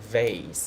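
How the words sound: It is said in a North American accent. "a North American accent they will say vase"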